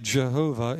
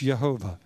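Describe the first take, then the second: First: The word begins with an English J sound. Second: The word begins with a Y sound. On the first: The speaker calls it wrong. "truly like Jehovah" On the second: The speaker calls it right. "it's Yehovah"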